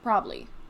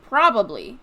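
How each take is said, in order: First: The word is shortened, with syllables dropped. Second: All three syllables are pronounced in full. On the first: "everyone says probably" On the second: "it's spelled probably"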